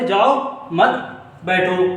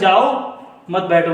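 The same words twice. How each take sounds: First: There is a pause after the second word. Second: There is a pause after the first word.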